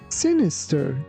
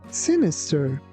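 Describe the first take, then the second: The two takes are said the same way.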